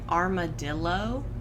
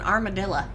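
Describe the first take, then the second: First: The word is said with full, clear vowels. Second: The word is said with vowels squeezed out. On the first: This is how others say it. "We don't say armadillo" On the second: This is how the family says it. "My family is so Southwestern. ... you're lucky if any other vowels are in there"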